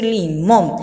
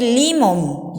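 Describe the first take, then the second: First: "limón" stressed as li-MÓN; stress on last syllable. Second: "limón" wrongly stressed as LÍ-mon; stress on first syllable. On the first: Teacher gives the accented form, "limón" said li-MÓN. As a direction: land firmly on MÓN in "limón". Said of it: "Tengo que decir limón". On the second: Teacher shows the word without its accent, "limón" said LÍ-mon. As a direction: hit the LI of "limón", letting "món" drop. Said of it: "Si no le pongo el acento". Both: Shown as a demonstration.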